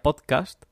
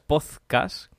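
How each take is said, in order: First: The d and the final t sound clear. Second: The d sounds like th, ending in 'zcas'. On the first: "que creo que está más o menos decentemente dicho" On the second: "que sería con Z y ZCAS"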